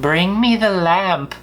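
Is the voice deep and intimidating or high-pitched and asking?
high-pitched. It sounds high-pitched, more asking than demanding.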